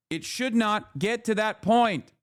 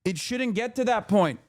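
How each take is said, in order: First: "should not" split into two weighty words; slow, deliberate stress on "should not"; emphatic restatement. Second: Said in the usual way. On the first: Real, not acted. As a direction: spell it out slowly, landing on "should not".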